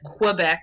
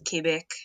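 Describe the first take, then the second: First: It is said the English way. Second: It is said the French way.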